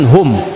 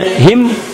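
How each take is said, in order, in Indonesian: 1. Kata itu memiliki vokal 'u'. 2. Kata itu memiliki vokal 'i'. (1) "dia bacakan hum" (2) "kita bacakan misalnya him"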